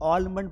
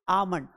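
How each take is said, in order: First: The L sound is pronounced in the word. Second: The L sound is left out of the word. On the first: The speaker calls it wrong. "हम सभी लोग इसे क्या पढ़ते हैं? ऑलमंड पढ़ते हैं" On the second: The speaker calls it right. "इसे हम पढ़ेंगे आमंड"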